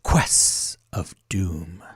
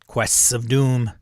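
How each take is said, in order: First: Each word is carefully and distinctly enunciated. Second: The phrase is said in a plain, casual way.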